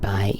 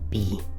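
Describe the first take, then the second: First: The syllable ends in an 'ai' vowel sound. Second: The syllable ends in an 'ee' vowel sound. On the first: The speaker calls it wrong. "Don't you dare pronounce this Bai. It's not Bai" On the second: The speaker calls it right. "it's B"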